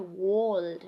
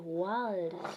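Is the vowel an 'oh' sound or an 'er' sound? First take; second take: oh; er. First: The vowel sounds like 'oh'. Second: The vowel sounds like 'er'. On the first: The speaker calls it wrong. "You don't say world" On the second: The speaker calls it right. "You say world"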